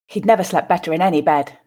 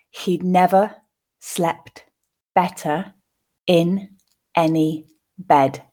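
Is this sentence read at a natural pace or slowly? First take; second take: natural pace; slowly. First: The sentence is read at a natural pace. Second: The sentence is read slowly. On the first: "then second at a more natural pace" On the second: "once more slowly, pausing for you to grasp the meaning"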